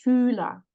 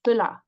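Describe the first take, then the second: First: "Fühler" with a long, held ü; long vowel. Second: "Füller" with a short, lax ü; short vowel. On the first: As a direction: stretch the ü in "Fühler". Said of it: "and not Fühler". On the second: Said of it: "the vowel has to be short here". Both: Shown as a demonstration.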